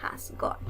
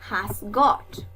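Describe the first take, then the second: First: "Has got" whispered softly as an echo; whispered repeat. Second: "Has got" said lower and clearly as a model; modeled phrase. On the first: Teacher echoes the phrase for the class in a whisper. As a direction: breathe "Has got" in a hush. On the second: Teacher gives the English for tiene, lower and deliberate. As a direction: give "Has got" a firm, low model. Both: Shown as a demonstration. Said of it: "cómo digo tiene".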